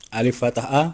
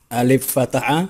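Both takes have the same delivery.

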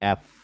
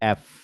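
Both takes have the same delivery.

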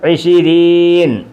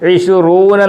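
First: The word ends with an 'een' sound. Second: The word ends with an 'oon' sound. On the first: This form is used in everyday speech. "അതിന് നമ്മൾ സംസാരിക്കുമ്പോൾ പറയുന്നത്" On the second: This form is used in formal or office settings. "Office വർക്കുകൾക്കും ഒക്കെ ഉപയോഗിക്കുമ്പോൾ"

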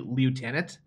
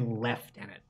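First: It is said the American way. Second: It is said the Canadian way. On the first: "Americans say lieutenant" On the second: "We say lieutenant"

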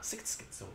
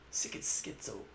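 First: The phrase is said quickly and smoothly. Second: The phrase is said slowly and carefully.

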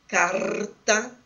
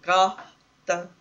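First: The r is said as in gaúcho speech. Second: The r is said as an aspirated sound. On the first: "como em algumas variedades do dialeto, da variedade sociolinguística praticada no Rio Grande do Sul" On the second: "Ainda pode ser aspirado"

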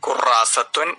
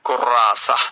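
First: The word ends with a full -atun ending. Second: The word ends with a short -a vowel. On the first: This is the complete form of the word. "വാക്കിന്റെ പൂർണ്ണ രൂപം ഖുറാസത്വൻ" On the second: This is how the word is usually said on its own. "ഖുറാസ എന്ന രീതിയിലാണ് സാധാരണ ഉച്ചരിക്കുക"

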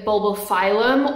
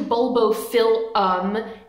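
First: The middle part sounds like 'file'. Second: The middle part sounds like 'fill'. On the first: The speaker calls it wrong. "a lot of people want to say Bulbophyllum" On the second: The speaker calls it right. "It's phyll, not file"

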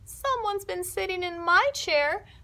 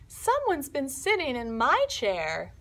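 First: The voice is tiny, high and small. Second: The voice is medium in pitch and size. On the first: Baby Bear is speaking. "in his tiny little voice" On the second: Mama Bear is speaking. "in her medium voice"

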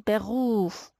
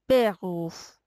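First: The stress is on the second syllable. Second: The stress is on the first syllable. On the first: The speaker calls it right. "وقتی تکیه اینجاست میشه بغوف" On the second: The speaker calls it wrong. "اگه بخوایم تکیه رو اینجا بذاریم که بغوف، اصلا خیلی اشتباه میشه"

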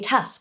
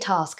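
First: The word is said with a Welsh accent. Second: The word is said with a London accent. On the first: This is how it is said back home. "Welsh people would say task" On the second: This is how it is said after years away. "but now I say task. Wow, London has really got to me"

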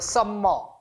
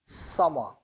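First: The m sound is pronounced twice. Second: The m sound is pronounced once. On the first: The speaker calls it wrong. "some more 이렇게 아주 야무지게들 발음하는데 그렇게 발음하는 게 아니고" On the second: The speaker calls it right. "자음이 두 개가 겹쳐 있기 때문에 발음을 하나만 해요"

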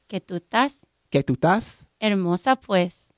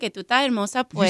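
First: The phrase is spoken slowly. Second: The phrase is spoken fast. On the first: The speaker calls it right. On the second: The speaker calls it wrong.

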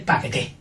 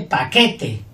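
First: The stress is on the last syllable. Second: The stress is on the middle syllable. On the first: "Y con la última fuerte" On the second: "Con la del medio fuerte"

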